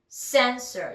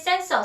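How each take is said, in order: First: It is said with an English pronunciation. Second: It is said with a Korean loanword pronunciation. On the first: The speaker calls it right. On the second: The speaker calls it wrong.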